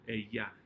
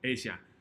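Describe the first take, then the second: First: The double L sounds like an English y. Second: The double L sounds like an English j. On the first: "the double L is going to have the y sound" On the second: "sometimes there's a little J sound"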